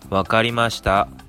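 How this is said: It sounds impatient and annoyed.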